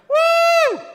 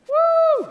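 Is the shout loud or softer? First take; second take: loud; softer. First: The shout is very loud. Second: The shout is softer. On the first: The speaker calls it wrong. "that was a little loud" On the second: The speaker calls it right. "I pulled away there"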